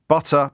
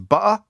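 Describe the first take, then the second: First: The middle t is clearly sounded. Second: The middle t is dropped.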